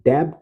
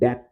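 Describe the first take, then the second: First: The b sound is pronounced before the t. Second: The b sound is silent before the t. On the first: The speaker calls it wrong. "इसे डेब्ट नहीं पढ़ते" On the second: The speaker calls it right. "बल्कि डेट पढ़ते हैं दोस्तों। बी यहाँ पे साइलेंट होता है।"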